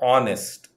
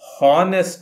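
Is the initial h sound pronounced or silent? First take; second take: silent; pronounced. First: The word starts with a vowel, no h. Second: The word starts with an audible h sound. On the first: The speaker calls it right. "ಈ ಎಚ್ ಅಕ್ಷರವನ್ನು ಉಚ್ಚಾರ ಮಾಡುವುದಿಲ್ಲ" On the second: The speaker calls it wrong. "ಹಾನೆಸ್ಟ್ ಅಲ್ಲ"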